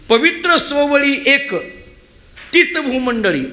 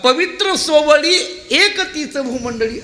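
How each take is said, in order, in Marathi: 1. विराम 'ek' शब्दानंतर येतो. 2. विराम 'ek' शब्दाआधी येतो. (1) "हा एक शब्द पवित्र सोवळीला जोडायचा" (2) "हा एक शब्द तीच भूमंडळीला राहू द्यायचा"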